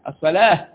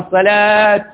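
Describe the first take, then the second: First: The word ends with an h sound. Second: The word ends with a t sound. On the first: "عملناها هاء" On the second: "ويعملها تاء"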